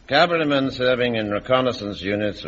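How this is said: It is said in a flat monotone.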